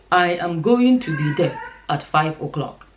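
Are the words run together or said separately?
separately. Each word is said separately in a deeper voice. The speaker calls it right. "That's African"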